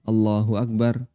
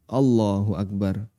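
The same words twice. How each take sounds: No difference in how they are said.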